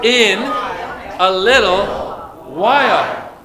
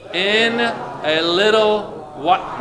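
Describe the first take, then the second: First: The phrase is said with strong, forceful emphasis. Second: The phrase is said plainly, without extra force. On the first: "Now say it with emphasis" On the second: "Say it out loud with me"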